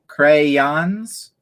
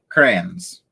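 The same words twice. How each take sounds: First: It is said with a general American pronunciation. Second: It is said with a Pennsylvania pronunciation. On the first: "Some people say crayons" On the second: "We say crayons"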